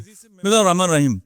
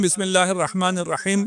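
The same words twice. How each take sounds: First: "بسم اللہ الرحمن الرحیم" gabbled fast in one careless run; rushed recitation. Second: Said in the usual way. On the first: Shown as a demonstration. Preacher showing how people rush through Bismillah, said too fast. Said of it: "بہت تیزی سے میں بول دیتے ہیں".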